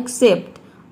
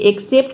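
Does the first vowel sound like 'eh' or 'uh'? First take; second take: uh; eh. First: The first vowel is a short 'uh' sound. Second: The first vowel is an open 'eh' sound. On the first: The speaker calls it right. "ये होता है एक्सेप्ट" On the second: The speaker calls it wrong. "ये एक्सेप्ट नहीं होता"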